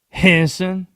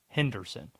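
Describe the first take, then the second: First: The word is squeezed into two syllables. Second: The word is said with all three syllables. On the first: It is said the way the locals say it. "Two syllables" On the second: It is said the way it is spelled. "Spelled just like that"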